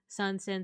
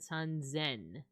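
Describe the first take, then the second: First: The second word begins with an s sound. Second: The second word begins with a z sound. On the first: This is the form the counting pattern would predict. The speaker calls it wrong. "saying San Sen so many times that it just became the Z sound" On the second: This is the form actually used for three thousand. The speaker calls it right. "San Zen isn't is actually the word"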